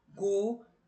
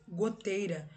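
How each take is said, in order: First: Goteira split in three, go... tei... ra; "goteira" counted out as three separate beats; syllable by syllable. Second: Said in the usual way. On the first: Shown as a demonstration. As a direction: break "goteira" into GO, TEI, RA with pauses. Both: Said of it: "eu tenho três sílabas".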